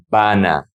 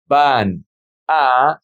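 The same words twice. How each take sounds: First: "van a" joined as one word, va-na; linked words. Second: "van a" as two separate words, pause between. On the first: Teacher showing how the words sound together, linked. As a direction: carry the n of "van" into "a". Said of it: "is gonna be". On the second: Teacher showing the words before joining them, said separately. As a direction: say "van", stop, then "a" on its own. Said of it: "how do we pronounce these words together". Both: Shown as a demonstration.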